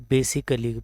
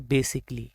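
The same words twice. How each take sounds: First: Basically in four syllables, "be-si-ka-li"; common mispronunciation. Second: Basically in three syllables, "be-sik-li"; correct pronunciation. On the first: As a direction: sound the a in the middle of basically. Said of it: "wrong pronounce करते हैं". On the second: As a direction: drop the second a of basically. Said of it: "right pronunciation है वो है". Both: Shown as a demonstration.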